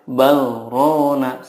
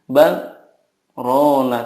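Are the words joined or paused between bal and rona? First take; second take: joined; paused. First: The two words run together without a break. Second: A brief stop comes between bal and rona. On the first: The speaker calls it wrong. "tidak boleh" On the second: The speaker calls it right. "harus ada saktahnya. Jadi"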